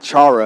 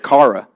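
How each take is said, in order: First: The word begins with a 'ch' sound. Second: The word begins with a 'k' sound. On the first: The speaker calls it wrong. "It's not chara" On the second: The speaker calls it right. "it's kara"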